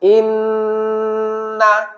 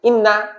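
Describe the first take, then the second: First: The n sound is held with a nasal hum. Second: The n sound is short, with no nasal hold. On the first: "আমরা এখন গুণনা সহ বলবো" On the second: "যদি গুণনা ছাড়া বলতাম"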